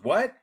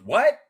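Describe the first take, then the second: First: High, loud called-out what, husband mimicked; shouted what. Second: Much higher, louder mock yell of the wife; yelled what. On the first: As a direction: call it back down the hallway. Husband calls back down hallway. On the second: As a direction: yell it back from the room. Wife yells back from room.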